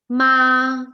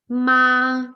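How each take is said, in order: First: The pitch stays high and level. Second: The pitch stays high and level.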